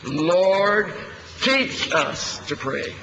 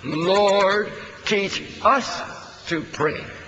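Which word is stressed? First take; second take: teach; us. First: The word "teach" is stressed. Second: The word "us" is stressed. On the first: The point is that we need to be taught. "emphasizing the word "teach."" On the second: The point is that we ourselves need teaching. "Let's emphasize the "us.""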